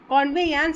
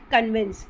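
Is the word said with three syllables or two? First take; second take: three; two. First: The word is said in three syllables. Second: The word is said in two syllables. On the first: "is a right pronunciation" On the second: "but we are saying what कन्वेंस"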